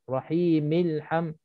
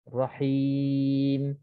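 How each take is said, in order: First: The final m links into the next word. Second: The word stops on a silent final m. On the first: The reader continues into the next verse. "kalau kita sambung" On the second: The reader pauses at the end of the verse. "kita berhenti, mim itu dimatikan"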